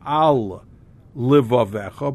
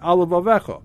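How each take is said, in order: First: The two words are kept separate between the l's. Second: The two words merge through one shared l sound. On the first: The speaker calls it right. "not as two words separating the two lamids" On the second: The speaker calls it wrong. "the lamid is like going on both words and he's merging the two words together"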